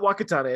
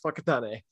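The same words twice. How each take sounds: First: The name is said with English-style sounds. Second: The name is said with Maori-style sounds. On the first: The speaker calls it wrong. "it's not Whakatane" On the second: The speaker calls it right. "it's Whakatane"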